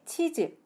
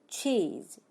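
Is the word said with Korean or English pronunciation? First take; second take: Korean; English. First: It is said as two short even Korean syllables. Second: It is one syllable with a long, strong vowel. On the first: The speaker calls it wrong. "우리는 치즈라고 발음하고요. ... 치즈로 발음해서는 안 된다" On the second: The speaker calls it right. "앞부분을 조금 더 크고 강하게 소리내서 cheese 하고 발음하셔야 돼요"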